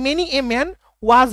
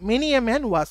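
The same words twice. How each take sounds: First: "many a man was" very slow and a little louder, rising on "many"; slow, louder teaching read; slow model phrase. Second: Said in the usual way. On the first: Shown as a demonstration. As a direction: present "many a man was" slowly to the class. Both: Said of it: "হবে, তাই না?".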